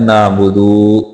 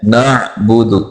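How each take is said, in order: First: नाबुदु with a long final "doo"; lengthened daal. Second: नाबुदु with a throaty ain and short final "du"; careful "na'-budu" for नाबुदु; corrected reading. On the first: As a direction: stretch the last vowel of नाबुदु. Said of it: "दाल को लंबा करके पढ़ जाते हैं". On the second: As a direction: recite नाबुदु slowly, cutting the last vowel short. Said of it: "जो कि दुरुस्त नहीं है". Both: Shown as a demonstration.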